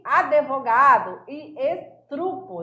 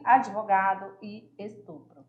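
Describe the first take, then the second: First: Slow ADVOGADO with extra E, ESTRUPO with TRU; incorrect pronunciation. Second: Lower, ADVOGADO with brief D-i, ESTUPRO with PRO; correct pronunciation. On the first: Teacher reads the faulty column, incorrect pronunciation. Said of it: "O, incorreta". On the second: Teacher names the correct column, correct pronunciation. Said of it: "o correto é a segunda coluna". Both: Shown as a demonstration.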